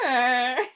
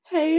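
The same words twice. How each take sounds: First: It is said in a bleating, goat-like voice. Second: It is said in a normal speaking voice.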